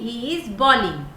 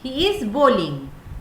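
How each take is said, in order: First: The first vowel sounds like in 'ball'. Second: The first vowel sounds like in 'bowl'. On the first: The speaker calls it wrong. "बहुत लोग गलती करते हैं" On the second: The speaker calls it right. "Right word होगा बोलिंग"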